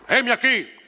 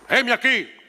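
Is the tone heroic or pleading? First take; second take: heroic; heroic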